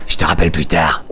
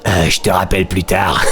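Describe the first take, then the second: First: Lower, trucker-woman voice; heavy smoker voice. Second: Lines broken up by a laugh; can't keep a straight face reading it; laughing through the line. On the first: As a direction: play her like a chain-smoking lorry driver. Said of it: "une voix de camionneuse ou de grosse fumeuse". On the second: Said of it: "j'ai envie de lui faire une voix de". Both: Acted.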